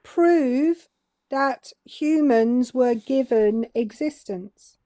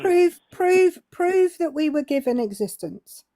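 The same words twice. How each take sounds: First: Slowed down for someone who missed it; slow, emphatic demand; slow, deliberate repeat. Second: Interrupting with a repeated demand; insistent challenge. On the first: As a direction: spell it out slowly, pausing after "Prove". Repeats slowly after "What's that?. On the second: Challenges the man to prove it. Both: Real, not acted.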